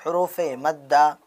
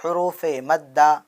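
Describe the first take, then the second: No difference in how they are said.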